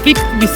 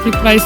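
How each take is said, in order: First: The name ends with a 'visa' sound. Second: The name ends with a 'vice' sound. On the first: A local person at the airport said it this way. "ആൾ പറഞ്ഞ് ഫ്രിറ്റ് വിസ എന്നാണ്" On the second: An online search gives it this way. "ഗൂഗിളില് ഫ്രിറ്റ് വൈസ് എന്ന് കാണിക്കുന്നത്"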